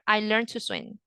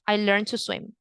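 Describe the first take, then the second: First: The D at the end of 'learned' is silent. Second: The D at the end of 'learned' is silent.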